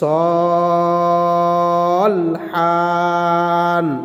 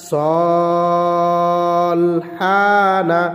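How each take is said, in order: First: The word stops on the final consonant. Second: The word ends on an open final vowel.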